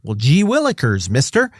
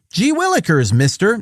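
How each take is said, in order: First: Put-on higher eager golly-gee kid voice; wholesome 1950s kid. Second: Put-on much higher, eager golly-gee kid voice; wholesome 1950s kid. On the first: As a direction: chirp it like a neighborhood kid. Neighbor kids offering help. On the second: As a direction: say it like a fresh-faced kid. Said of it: "that paraphrase is mine".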